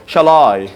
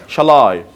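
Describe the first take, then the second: No difference in how they are said.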